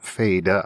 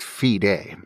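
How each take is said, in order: First: The first vowel differs from the 'fidelis' vowel. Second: The first vowel matches the 'fidelis' vowel. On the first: The speaker calls it wrong. "people mispronounce the last name Fede" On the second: The speaker calls it right. "It is pronounced Fide, like in the Latin word fidelis"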